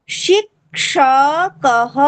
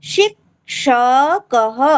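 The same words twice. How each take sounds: No difference in how they are said.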